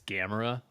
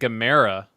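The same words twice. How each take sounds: First: The name sounds like the word camera. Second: The name does not sound like camera. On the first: This is how commenters say it should be. "like camera" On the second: This is how the movie says it. "I accidentally pronounced it the same way the people in that movie pronounced it"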